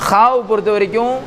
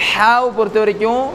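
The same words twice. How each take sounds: Both takes have the same delivery.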